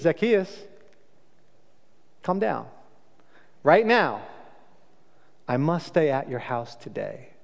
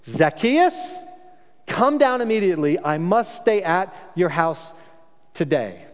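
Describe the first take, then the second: First: Soft, unhurried, kindly call; gentle invitation. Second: Commanding call. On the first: Jesus inviting Zacchaeus down from the tree, gentle and warm. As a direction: invite him down, no judgment. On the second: Jesus calling sharply up to Zacchaeus in the tree, commanding. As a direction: summon him down like a stern rabbi. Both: Shown as a demonstration. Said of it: "And Jesus doesn't do that".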